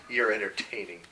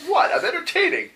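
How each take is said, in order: First: Lower-key, softer deadpan reply; dry retort. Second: High-pitched mock affront; indignant protest. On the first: Acted. Server answers Gendo back, quiet dry retort. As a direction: drop it quietly as a comeback. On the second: Gendo objects to the server, high indignant protest. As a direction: squeak it out, put out.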